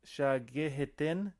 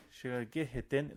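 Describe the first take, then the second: First: "shagi hitin" with a slow clear H. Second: 'hitin'의 H를 살려 천천히; "shagi hitin", H sounded slowly. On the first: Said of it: "I hear that H just becomes a Y". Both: Shown as a demonstration.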